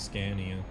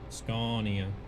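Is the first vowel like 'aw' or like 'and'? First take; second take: and; aw. First: The first vowel sounds like the 'a' in 'and'. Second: The first vowel sounds like 'aw'. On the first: This is how people who don't know Swedish say it. The speaker calls it wrong. "anybody that doesn't understand Swedish was would say Scania" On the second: This is the Swedish way to say it. The speaker calls it right. "it's an aw sound, not an and sound"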